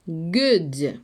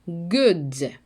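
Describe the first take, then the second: First: The first consonant is a hard stopped g. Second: The first consonant is a hard stopped g.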